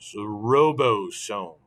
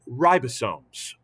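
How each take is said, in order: First: The first syllable sounds like 'robot'. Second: The first syllable sounds like 'rye'. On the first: The speaker calls it wrong. "I mispronounced it on purpose there" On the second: The speaker calls it right. "but ribosomes"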